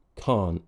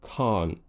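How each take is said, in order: First: The final t is swallowed as a glottal stop. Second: The final t is swallowed as a glottal stop.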